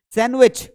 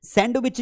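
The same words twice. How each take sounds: First: सैंडविच said as "sanwich", no d; सैंडविच with the d kept silent. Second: सैंडविच said as "sand-wich", d sounded; सैंडविच with an audible d; wrong way with d. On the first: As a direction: say सैंडविच without any d. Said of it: "बोलना सैंडविच है". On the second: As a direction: pronounce the d in सैंडविच as the error. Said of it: "सैंडविच नहीं होता". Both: Shown as a demonstration.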